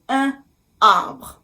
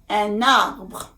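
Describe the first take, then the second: First: The two words are said apart without linking. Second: The n sound runs into the following vowel. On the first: The speaker calls it wrong. "it would really sound strange if you say" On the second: The speaker calls it right. "the sound is different"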